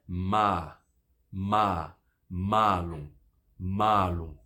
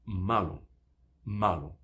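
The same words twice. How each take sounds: First: Ma and malum with a long a; drawn-out maa, maa-lum; long vowel. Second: Malum with a short a; quick malum, no lengthening; short vowel. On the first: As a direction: hold the a in "ma" and "malum". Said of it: "só que em maçã é". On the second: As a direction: keep "ma" brief in malum. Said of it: "E em mal é". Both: Shown as a demonstration.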